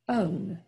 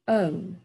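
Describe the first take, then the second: The two takes are said the same way.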